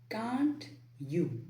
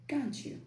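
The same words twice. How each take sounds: First: The T and Y sounds are kept separate. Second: The T and Y blend into a CH sound. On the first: "instead of saying can't you" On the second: "say can't you. The T plus Y sound becomes C H"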